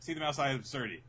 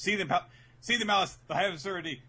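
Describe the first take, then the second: First: There is no pause after 'Seething Malice'. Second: There is a pause after 'Seething Malice'.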